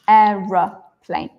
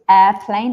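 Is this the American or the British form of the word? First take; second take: British; American. First: It is said in the British form. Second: It is said in the American form. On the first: "I say aeroplane" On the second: "I don't say airplane"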